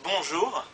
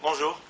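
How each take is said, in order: First: It is said warmly and sincerely. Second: It is said coldly, with a hostile tone.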